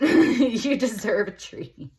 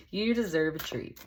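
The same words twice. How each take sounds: First: High, loud, slow and drawn out, teasing; a high, loud, slow voiced card speaking; high, slow sing-song treat. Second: Said in the usual way. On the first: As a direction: coo it up high like a playful pep talk. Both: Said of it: "is what it's saying".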